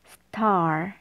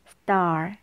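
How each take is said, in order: First: The t is aspirated, with a puff of air. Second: The t is tense and unaspirated, like a d. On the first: "이 적힌 대로 읽게 되면 star 이렇게 돼요" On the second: "요 티읕을 쌍디귿으로 바꿔볼게요"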